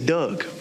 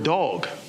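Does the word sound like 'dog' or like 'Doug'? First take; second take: Doug; dog. First: The vowel sounds like the vowel in 'Doug'. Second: The vowel is the open 'dog' vowel. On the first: "They say Doug" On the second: "they don't say the word dog"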